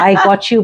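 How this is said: It is said in an angry, fierce voice. Support that urges a fight. "she's angry and she's like"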